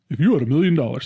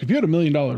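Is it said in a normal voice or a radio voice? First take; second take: radio voice; normal voice. First: It is said in a put-on radio voice. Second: It is said in a normal voice.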